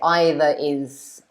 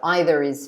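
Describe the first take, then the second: First: No R sound comes between the two words. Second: An R sound links the two words. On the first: The speaker calls it wrong. "it's a bit strange, I suppose, to say" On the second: The speaker calls it right. "I would probably say the R"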